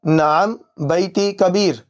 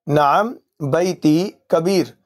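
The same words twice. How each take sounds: The two takes are said the same way.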